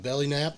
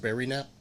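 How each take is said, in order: First: The first word is said with a clear L sound. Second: The first word is said with an R sound. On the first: "We call it a belly nap" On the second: "when we voice do her voice, she has a speech impediment, so it's a berry nap"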